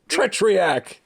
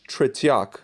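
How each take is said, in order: First: The name is said with an extra R sound. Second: The name is said without an extra R sound. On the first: The speaker calls it wrong. "There was not an extra R in that fucking name" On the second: The speaker calls it right. "At least he could say tretiak"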